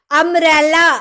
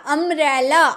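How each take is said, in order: First: अम्ब्रेला said loud, opening vowel punched; teacher stressing the vowel start of अम्ब्रेला; vowel sound demo. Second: Said in the usual way. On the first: Shown as a demonstration. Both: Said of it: "ओ का sound आ रहा ना".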